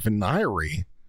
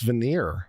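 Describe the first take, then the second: First: It is said with three syllables, ending in 'ree'. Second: It is said with two syllables, ending in 'neer'. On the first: This is an unfamiliar pronunciation. "I've never heard it pronounced that way" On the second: This is the usual pronunciation. "I've heard it always pronounced veneer"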